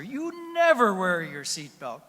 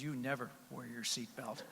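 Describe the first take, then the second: First: Slow, loud and higher accusation; loud scolding. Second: Said in the usual way. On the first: Retold or imitated. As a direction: hammer each word at him. Wife shouts the line again.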